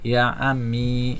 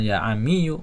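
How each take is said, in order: First: The last word ends with a plain 'ee' sound. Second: The last word ends with a 'yoo' syllable. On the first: The speaker calls it right. "ya ammi ya, sukun dia" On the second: The speaker calls it wrong. "jadi bukan ya ammiyu"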